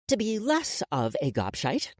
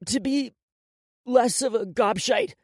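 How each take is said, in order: First: Slightly raised measured prompt; feed the phrase for repeating; dictating. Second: Steel yourself and repeat it; upset boy. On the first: Woman dictates the boy's promise, dictating. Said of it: "So repeat after me". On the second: Crying boy repeats the forced promise, upset. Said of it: "He took a deep breath". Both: A narrator's reading.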